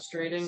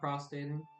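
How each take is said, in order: First: An r sound follows the st. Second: No r sound follows the st. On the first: The speaker calls it right. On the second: The speaker calls it wrong. "not prostating"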